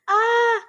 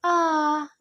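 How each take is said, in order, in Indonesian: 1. Diucapkan dengan nada tinggi. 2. Diucapkan dengan nada rendah. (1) "yang gembira ah" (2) "nada rendah itu ah, itu menunjukkan perasaan sedih"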